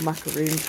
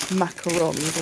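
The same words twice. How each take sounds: First: Macaroons ending in a long "oon"; English-style pronunciation. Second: Macarons ending in a French-style "on"; French-style pronunciation. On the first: Offering viewers the other option, macaroons with long "oon". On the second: Offering viewers one option, macarons said French-style. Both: Shown as a demonstration. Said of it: "however you want to pronounce them".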